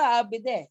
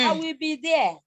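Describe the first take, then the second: First: Said in the usual way. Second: I will be there, every syllable given equal stress; syllable timed. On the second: Shown as a demonstration.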